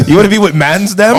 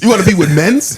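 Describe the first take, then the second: First: Higher London roadman slang, laughing; london roadman accent. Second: Mock London slang, rising; london roadman accent. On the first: Retold or imitated. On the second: Mocking the roadman line.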